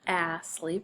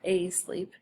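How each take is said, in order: First: The first vowel is a short A. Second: The first vowel is a long A. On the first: "the A is not short or long" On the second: "the A is not short or long"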